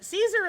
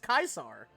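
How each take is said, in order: First: The name begins with an S sound. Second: The name begins with a K sound. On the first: The speaker calls it wrong. "is not how you pronounce that name" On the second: The speaker calls it right. "It's pronounced Caesar"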